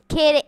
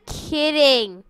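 First: Said in the usual way. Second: Kidding said again, more drawn out and falling; second try at the word Kidding, stretched with a falling end; retried delivery. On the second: Shown as a demonstration. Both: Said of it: "let me try that again".

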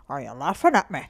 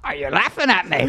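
First: Put-on low Irish-accented challenge. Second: Copycat go at an Irish accent; attempted Irish accent. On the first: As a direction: play an Irish guy taking offence. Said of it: "let me hear your Irish accent". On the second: Shown as a demonstration. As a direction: have a try at Irish indignation. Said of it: "Can you try that?".

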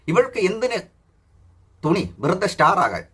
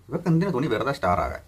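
First: Higher, slow sneering read of star; mocking read. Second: Said in the usual way. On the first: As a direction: read the comment back in a high mocking sing-song. Mock-reading a commenter's post. (കളിയാക്കി ഉയർന്ന സ്വരത്തിൽ വായന)

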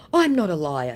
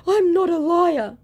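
First: Loud, lightly put-on denial; mock protest. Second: High, loud wailed protest; hammed-up protest, pitched right up; mock outraged denial. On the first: Scammer defending himself to the woman, mock protest. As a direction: protest loudly in a mocking voice. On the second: Busted scammer insisting to the woman, mock outrage.

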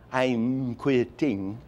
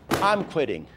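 First: Said in the usual way. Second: I'm and quitting both hit higher; two accents. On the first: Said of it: "That is meaningless". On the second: Shown as a demonstration. Demo of hitting the accents, stressing both words. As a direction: punch I'm, then punch quitting. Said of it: "Two accent".

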